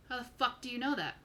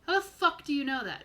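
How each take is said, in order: First: Mildly incredulous probing question; probing demand. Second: Higher, louder insistent repeat; pressing demand. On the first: Big guy checks out a stranger, mildly incredulous. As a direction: ask it pointedly, without real aggression. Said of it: "not aggressively. He's, he's really peering". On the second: Big guy gets in a stranger's face, pressing. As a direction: press the question harder, falling at the end. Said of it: "he gets in your face just a little bit". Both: Acted.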